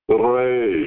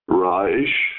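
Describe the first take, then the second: First: The R sound is rolled. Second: The R sound is plain, not rolled. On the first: "the rolling R sound" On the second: "the R sound"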